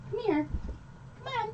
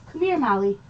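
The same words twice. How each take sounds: First: High, much softer coaxing come here. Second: Said in the usual way. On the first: Real, not acted. Streamer coaxes the nervous dog closer, soft and high. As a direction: coax her in gently, voice up and soft.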